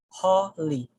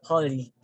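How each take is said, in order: First: The first syllable is lengthened and stressed. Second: The first syllable is short and not lengthened. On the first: The speaker calls it right. "I prolong the sound of ho" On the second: The speaker calls it wrong. "we're actually pronouncing this word as holy"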